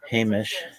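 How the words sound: It is said the Litvak Yiddish way. "Those of the Litvak camp use the first pronunciation of Hamish"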